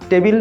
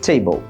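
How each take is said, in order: First: The t is unaspirated, with no breath puff. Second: The t is aspirated, with a breath puff. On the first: The speaker calls it wrong. "না বলে" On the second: The speaker calls it right. "টি কে ঠি বলবেন"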